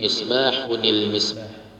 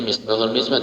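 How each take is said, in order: First: A linking 'ni' sound joins the two words. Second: The first word runs straight into 'l' without 'ni'. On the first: The speaker calls it right. "tapi misbahunil misbah" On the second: The speaker calls it wrong. "jangan dibaca misbahul misbah"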